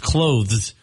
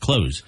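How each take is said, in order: First: A soft th sound is pronounced. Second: The th sound is dropped entirely. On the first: The speaker calls it right. "But it's clothes" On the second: The speaker calls it wrong. "A lot of people just say close"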